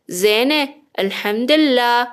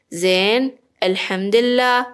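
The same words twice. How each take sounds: First: زین said as zene before الحمدلله; slowly, زین with an added long e, then الحمدلله; feminine form. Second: زین as zen before الحمدلله; slowly, زین stopping on n, then الحمدلله; masculine form. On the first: Teacher gives a woman's longer answer, slow zene for زین. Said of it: "حالا من مؤنثم". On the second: Teacher gives a man's longer answer, slow zen for زین. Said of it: "اگر طولانی ترش بخوام بکنم". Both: Shown as a demonstration.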